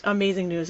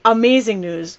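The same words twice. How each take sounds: First: Amazing news repeated much softer, to herself; soft echo. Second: Said in the usual way. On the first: Real, not acted. Vlogger moved by her dog's remission, repeating it softly. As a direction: let the echo fall away quietly.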